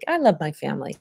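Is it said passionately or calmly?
calmly. It is said in a calm, gentle way.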